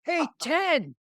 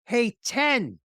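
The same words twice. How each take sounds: First: Shouted high and bright across the street; yelling a name again. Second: Loud, high call across the street; yelling a name. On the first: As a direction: hail him like an old buddy, much higher. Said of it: "calling him Ten". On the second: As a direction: call out to a famous stranger, much higher. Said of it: "I, I yell". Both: Retold or imitated.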